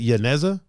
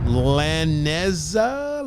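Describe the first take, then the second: First: Yaneza begun with a Y sound, asked as a question; questioning Yaneza, the double L said like Y. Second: Laneza drawn out slowly, starting with an L sound; unsure, stretched Laneza with an L at the front; trying a pronunciation. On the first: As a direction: try Yaneza with a Y at the front, lower. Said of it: "two L's is usually pronounced like a Y". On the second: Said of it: "I don't know how to say that". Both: Shown as a demonstration.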